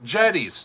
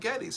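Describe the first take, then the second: First: The name sounds like the word 'jetty'. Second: The name does not sound like 'jetty'. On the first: The speaker calls it right. "Like a like a jetty that goes out" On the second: The speaker calls it wrong. "I've been pronouncing it wrong"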